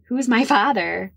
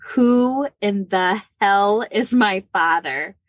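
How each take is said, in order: First: Higher-pitched, plainer repeat of the question. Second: Slow, drawn-out, punched question; emphatic demand. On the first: Niece repeating herself to her aunt, higher insistent question. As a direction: ask it over, pitched up. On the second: Niece phoning her aunt in desperation, emphatic demand. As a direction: spell it out slowly, demanding an answer. Acted blunt demand on a phone call. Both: Retold or imitated.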